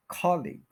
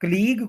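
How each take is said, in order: First: कॉलिग as "KOL-ig", falling off; stress on KOL. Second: colleague as "k-LEEG"; wrong stress. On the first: Teacher giving the correction, KOL-ig for कॉलिग. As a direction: stress the start of कॉलिग, leave the end weak. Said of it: "कॉल पे stress करें". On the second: Teacher showing what is wrong, k-LEEG for colleague. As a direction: stretch LEEG in colleague, barely any first vowel. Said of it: "कोई word नहीं होता जी". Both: Shown as a demonstration.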